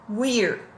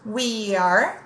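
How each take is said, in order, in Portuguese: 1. As duas palavras são ditas juntas. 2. As duas palavras são ditas separadamente.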